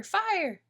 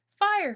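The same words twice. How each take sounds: First: High repeated alarm shout; shouting fire. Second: High, loud alarm shout; shouting fire. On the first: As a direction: cry out the warning again. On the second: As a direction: yell the warning through the door. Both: A narrator's reading. Someone pounding on door.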